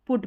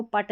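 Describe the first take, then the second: First: पुट with the short oo of book; correct short oo. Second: पट with a short 'uh', rhyming with cut; wrong 'uh' vowel. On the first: Teacher giving the exception for 'put', पुट with short oo. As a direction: say पुट, rounded short vowel, not 'uh'. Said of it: "पुट पढ़ते हैं". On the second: Teacher showing how 'put' is not read, पट with 'uh'. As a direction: misread put as पट. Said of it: "इसको पट नहीं पढ़ते". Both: Shown as a demonstration.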